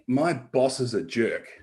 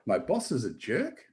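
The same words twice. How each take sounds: First: The voice falls at the end like a statement. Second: The voice rises at the end like a question. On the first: It is a firm assertion. "if I say" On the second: It is a softer, questioning remark. "if I put a question mark after it"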